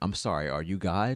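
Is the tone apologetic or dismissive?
dismissive. It sounds dismissive and challenging, like a rebuke. The one addressed is not really God. "I'm reminding myself that you're not God"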